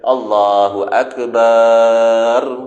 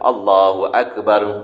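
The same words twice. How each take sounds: First: The vowel after the b is drawn out long. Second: The vowel after the b is short. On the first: It turns the word into drum. The speaker calls it wrong. "menambah alif selepas huruf ba pada perkataan akbar" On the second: It states that God is great. The speaker calls it right. "sebut biasa-biasa tuan-tuan"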